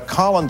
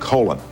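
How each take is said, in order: First: The name has its common British pronunciation. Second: The name has an American pronunciation. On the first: This is what his parents called him. "the more common British pronunciation" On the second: This is what his friends called him. "that family pronounced their name Colin"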